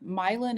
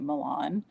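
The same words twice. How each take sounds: First: It is said the local American way. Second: It is said the original European way. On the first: This is how the town's residents say it. "there's a Milan, Illinois, right by me" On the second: This is how the European city is said. "you should really be pronouncing it Milan"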